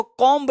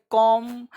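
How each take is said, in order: First: "कॉम्ब" with an audible b at the end; b sounded. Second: "कॉम" ending on m, no b; silent b. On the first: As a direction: say "कॉम्ब" as spelt, b and all. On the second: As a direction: say "कॉम" with the b dropped. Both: Shown as a demonstration. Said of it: "इसको कॉम्ब नहीं पढ़ेंगे".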